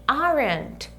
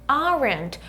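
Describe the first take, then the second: Both takes have the same delivery.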